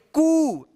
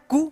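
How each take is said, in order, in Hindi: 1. k के बाद का स्वर लंबा है। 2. k के बाद का स्वर छोटा है। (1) "इससे थोड़ा इसमें लंबा उच्चारण होगा" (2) "छोटी यू की मात्रा कू"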